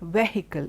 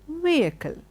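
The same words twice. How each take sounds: First: The H in the middle is pronounced. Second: The H in the middle is silent. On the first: The speaker calls it wrong. "It's not vehicle" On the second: The speaker calls it right. "the H is silent. It is vehicle"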